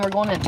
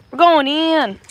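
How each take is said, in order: First: Said in the usual way. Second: Loud, higher playful announcement; rallying call. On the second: Pretend. Streamer announcing the move inside, mock-heroic call. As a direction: call out WE'RE GOING IN like a mission.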